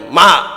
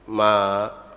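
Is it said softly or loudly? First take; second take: loudly; softly. First: It is said more loudly. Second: It is said softly and gently.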